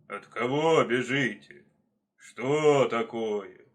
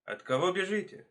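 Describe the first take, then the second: First: Slow, loud bear voice; heavy, drawn-out questioning. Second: Inquisitive fox. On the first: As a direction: boom it out with long vowels. Bear questions the fleeing animals. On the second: Fox calling to running hares. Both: Acted.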